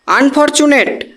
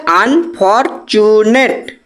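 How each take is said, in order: First: Said in the usual way. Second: unfortunate slowly split into আন, ফর, চু, নেট; four syllables. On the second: Shown as a demonstration. Teacher counting four syllables, unfortunate syllable by syllable. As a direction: say unfortunate in four separated beats. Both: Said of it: "চারটে দল তৈরি হয়ে গেল".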